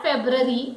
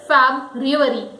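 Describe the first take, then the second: First: FEBRUARY as FEB-ruh-ree, no U; wrong pronunciation. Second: FEBRUARY as FAB-ryoo-uh-ree; correct pronunciation. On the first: Teacher rejecting the wrong pronunciation. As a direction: say FEBRUARY in three syllables without "ryoo". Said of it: "It is not February". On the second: Teacher correcting learners, correct pronunciation. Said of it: "it is February". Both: Shown as a demonstration.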